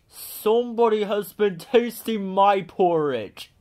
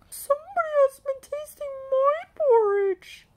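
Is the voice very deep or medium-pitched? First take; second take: very deep; medium-pitched. First: It is said in a great big voice. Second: It is said in a middle-sized voice.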